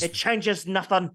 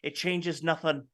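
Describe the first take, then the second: First: It is said in a put-on Scottish accent. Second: It is said in the speaker's plain accent.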